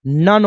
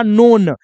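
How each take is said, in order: First: "नन" with a short uh vowel; short vowel in "नन", no long o; exception pronunciation. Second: "नोन" with a long o; rule-based mispronunciation. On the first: Teacher giving the real pronunciation, short vowel. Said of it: "इसका pronunciation क्या होता है". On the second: Teacher showing the wrong regular reading, long o. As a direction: stretch the o in "नोन". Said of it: "ये गलत है". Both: Shown as a demonstration.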